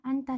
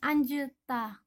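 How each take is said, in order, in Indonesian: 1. Bunyi j tidak dilafalkan setelah n. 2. Bunyi j dilafalkan setelah n. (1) "Cukup dibaca anta saja" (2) "Bukan anjeta"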